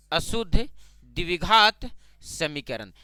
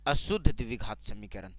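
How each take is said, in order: First: अशुद्ध, द्विघात, समीकरण spaced out and stretched; slow dictation. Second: Said in the usual way. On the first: Shown as a demonstration. Term repeated slowly for the class. (अशुद्ध द्विघात समीकरण धीरे-धीरे, रुक-रुक कर)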